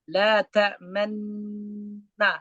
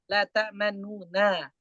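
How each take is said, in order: First: The dropped vowel is not voiced, only implied. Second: The vowel is pronounced briefly and faintly, quicker. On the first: The dropped vowel is shown only by rounding the lips. "ismam itu menampakkan domah yang terbuang" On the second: Only a third of the vowel is read. "rom itu membaca sepertiga harokat. ... Biasa aja, cuma lebih cepat"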